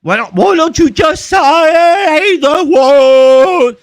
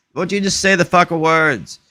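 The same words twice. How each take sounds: First: Very high, loud, stretched-out words; hammed-up slow-motion wail; mock slow talk. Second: Said in the usual way. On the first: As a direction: drag every word out in loud mockery. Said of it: "If I talk real slow".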